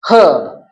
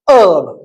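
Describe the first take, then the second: First: The word begins with an h sound. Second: The word begins without an h sound. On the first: "So this is pronounced with H sound" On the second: "here H is silent"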